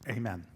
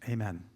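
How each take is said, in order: The two takes are said the same way.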